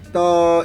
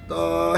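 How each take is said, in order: First: The voice is thin and childlike, without grounding. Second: The voice is grounded and comes from low down. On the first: The speaker calls it wrong. "그냥 발성이 아니면 떠 이렇게 나가. 애기가 부르는 거 같잖아요" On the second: The speaker calls it right. "접지를 하고 여기 목 밑에서 발성이 나가"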